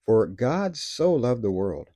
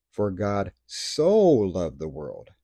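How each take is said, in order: First: "so" given the weight in "For God so loved the world", slightly slowed; stress on SO. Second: Slow reading with "so" drawn out and dwelt on in "For God so loved the world"; slow it right down and savour "so"; a different emphasis. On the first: Preacher reading John 3:16 to the church, leaning on "so". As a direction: lean on "so", let the rest follow. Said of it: "One time I'll read it like this". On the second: Preacher rereading the verse slowly, dwelling on "so". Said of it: "I'll emphasize a different part". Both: Shown as a demonstration.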